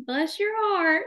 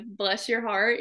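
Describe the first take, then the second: First: "Bless your heart" much higher, a foreigner's mock Southern accent; foreigners faking Southern. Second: Said in the usual way. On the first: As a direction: ham up "Bless your heart" like a European trying a Southern drawl. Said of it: "if I ask them to speak Southern, they're like". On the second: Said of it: "I say, like".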